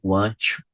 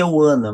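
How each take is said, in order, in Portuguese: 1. As duas palavras são ditas completas e separadas. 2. As palavras se juntam em uma forma reduzida. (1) "O sotaque puxado" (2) "Mudança ou junção"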